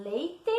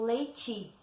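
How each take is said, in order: First: "leite" ending in hard T and full E: lei-tê; spelling pronunciation. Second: "leite" ending in a soft TCHI: lei-tchi; everyday pronunciation. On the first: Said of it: "a escrita correta é leite". ("leite" como se escreve: lei-tê) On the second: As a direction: say "leite" with an I sound at the end. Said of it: "A gente fala leite". ("leite" como se fala: lei-tchi) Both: Shown as a demonstration.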